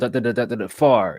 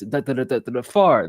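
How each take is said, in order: First: The last word ends on a normal pitch. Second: The last word ends on a higher, theatrical pitch.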